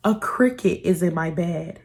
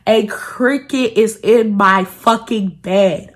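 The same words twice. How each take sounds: First: Said in the usual way. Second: Slow, every word spelled out; slow disgusted emphasis. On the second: Real, not acted. Telling viewers, slow outraged repeat. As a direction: drag it out in disbelief.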